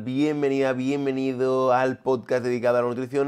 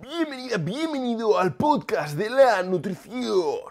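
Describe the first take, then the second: First: It is said in his normal voice. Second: It is said in an unusual, put-on voice.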